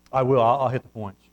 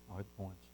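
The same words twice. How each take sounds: First: Said in the usual way. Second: Far softer, lower, under the breath; a low, nearly silent reminder to self; muttered aside. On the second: Real, not acted. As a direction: say "I'll hit the points" to yourself, barely audible. Repeats to himself under breath.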